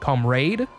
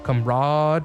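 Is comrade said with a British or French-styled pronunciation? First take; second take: British; French-styled. First: It has a British English pronunciation. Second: It has a French-styled pronunciation. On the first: "British English pronunciation comrade" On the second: "more uh, French-styled pronunciation"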